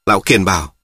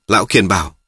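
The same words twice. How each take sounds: The two takes are said the same way.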